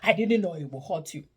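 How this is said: It is screamed in an angry tone.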